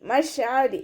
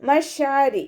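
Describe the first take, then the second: Both takes have the same delivery.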